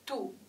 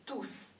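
First: The final s sound is silent. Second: The final s sound is pronounced. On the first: The word is used as an adjective. "当是形容词的时候... s 不发音" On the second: The word is used as a pronoun. "当是代词的时候，阳性复数tous s 发音"

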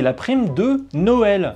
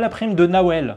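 First: The last word is said as standard French Noël. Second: The last word is said with an altered 'Nawel' sound. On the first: The speaker calls it right. "c'est la prime de Noël" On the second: The speaker calls it wrong. "Faites pas comme si vous aviez mal compris phonétiquement"

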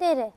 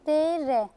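First: The two sounds are read quickly, nearly joined. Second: The two sounds are read slowly and separately. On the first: "Biraz hızlı okuyun deyin" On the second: "Bir daha oku deyin"

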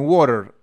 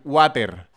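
First: The R is pronounced like an English r. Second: The R is pronounced like a Spanish r. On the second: "Así"

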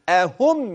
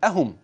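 First: The first sound is set apart from the rest. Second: The word is run together as one unit. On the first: The speaker calls it right. "ولكن قل أهم يقسمون رحمة ربك، هكذا" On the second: The speaker calls it wrong. "فلا تقل أهم"

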